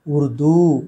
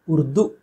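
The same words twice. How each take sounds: First: उर्दू with drawn-out final oo; long final vowel. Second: उर्दू said with short final u; quick "urdu" ending in उर्दू; wrong short ending. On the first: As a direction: stretch the दू of उर्दू. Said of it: "दीर्घ होना चाहिए". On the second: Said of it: "गलत है". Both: Shown as a demonstration.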